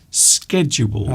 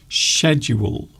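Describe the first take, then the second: First: American pronunciation, not starting with a sh sound. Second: British pronunciation, starting with a sh sound. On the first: "But in American English, you might find schedule" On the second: "in British English, we often say schedule. So it's pronounced like shoe"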